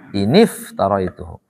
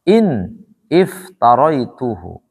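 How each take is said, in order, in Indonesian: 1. Kata-kata itu disambung dengan tambahan vokal i. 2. Kedua kata diucapkan terpisah, tidak disambung.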